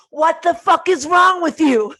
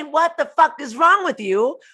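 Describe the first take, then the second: First: High, loud furious shout; mock rage explosion; angry yell. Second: Loud, high exasperated shout; mock furious outburst; angry yell. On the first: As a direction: blow up at them. Yelling at someone, counterexample. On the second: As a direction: snap at them in anger. Repeated yell example. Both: Shown as a demonstration.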